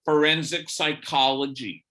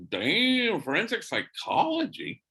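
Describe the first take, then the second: First: Said in the usual way. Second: High, rising surprised question. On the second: Retold or imitated. Priest hearing her career choice, surprised. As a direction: caught off guard, impressed.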